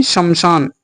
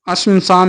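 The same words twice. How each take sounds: First: शमशान starting straight on sh; correct opening. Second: अश्मशान with an extra vowel first; wrong opening. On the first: Teacher correcting students, शमशान starting on sh. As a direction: begin शमशान without any leading vowel. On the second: Teacher rejecting an error, अश्मशान with added a. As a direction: begin अश्मशान on a vowel before the sibilant. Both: Shown as a demonstration. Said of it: "नहीं".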